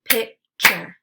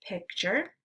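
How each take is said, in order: First: "Picture" as two separate beats, Pic – ture; syllables split apart. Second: Said in the usual way. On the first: Shown as a demonstration. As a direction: say "Picture" syllable by syllable, pausing between. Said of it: "give you the parts of the syllable". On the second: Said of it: "blend it together".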